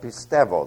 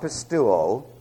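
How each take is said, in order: First: The diphthong is said as an ev sound. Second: The diphthong is said without a v sound. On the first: The speaker calls it right. "simply pronounced as an ev sound" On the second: The speaker calls it wrong. "Not pistuo"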